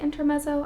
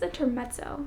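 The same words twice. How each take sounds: First: The double z is said as a plain z. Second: The double z is said as ts. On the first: "I've also heard people say intermezzo" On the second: "that Italian T from the Z sound"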